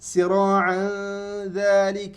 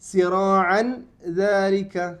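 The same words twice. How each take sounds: First: The n blends nasally into the following sound. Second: The n is pronounced fully and clearly. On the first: The speaker calls it right. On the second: The speaker calls it wrong.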